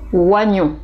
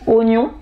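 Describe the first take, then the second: First: The word has a regional pronunciation. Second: The word has the standard pronunciation. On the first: "dans certaines régions, vous pourriez entendre oignon" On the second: "bonne prononciation est oignon"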